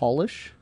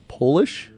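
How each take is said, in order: First: The first vowel sounds like the one in 'doll'. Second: The first vowel sounds like the one in 'pole'. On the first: It means making something shiny. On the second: It means someone from Poland.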